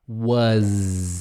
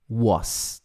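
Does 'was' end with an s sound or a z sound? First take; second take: z; s. First: The word ends with a buzzing z sound. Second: The word ends with a hissing s sound. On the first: The speaker calls it right. "Was com Z no final" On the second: The speaker calls it wrong. "Não é was"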